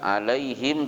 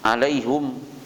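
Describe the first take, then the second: First: The last syllable has an 'ee' vowel. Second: The last syllable has an 'oo' vowel. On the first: This is the form some Arabs do not use. "tidak mengucapkan alaihim" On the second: This is the form some Arabs use in their dialect. "tapi alaihum"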